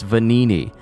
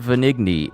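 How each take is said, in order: First: No G sound is heard in the name. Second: A G sound is heard in the name. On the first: The speaker calls it right. "I should have been making the G silent" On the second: The speaker calls it wrong. "It's not Vanigni"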